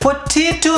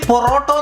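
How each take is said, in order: First: It sounds like 'poteto', with an 'ay' vowel. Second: It sounds like 'porotto', with an 'o' vowel. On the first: The speaker calls it right. "പൊറ്റേറ്റോ എന്ന് പറയണം" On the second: The speaker calls it wrong. "ഈ പൊറോട്ടോ എന്ന് പറയുന്ന പോലെയല്ല"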